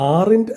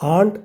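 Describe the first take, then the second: First: It is said with two syllables, like 'ar-int'. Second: It is said with one syllable, like 'aant'. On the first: The speaker calls it wrong. "ഇത് നമ്മൾ ആറിൻറ്റ് എന്നല്ല പറയേണ്ടത്" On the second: The speaker calls it right. "മറിച്ച് ആണ്ട് എന്നാണ്"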